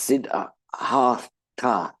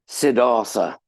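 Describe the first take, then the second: First: The th is a t followed by h. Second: The th is said as English 'th'. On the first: The speaker calls it right. "the th in Sanskrit are two separate letters" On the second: The speaker calls it wrong. "like like Mister Sidney Arthur Gautama"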